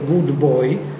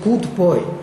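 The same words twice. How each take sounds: First: The consonants are voiced, as in g and b. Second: The consonants are voiceless, like k and p. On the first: "They never say good boy" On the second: "they will say good boy"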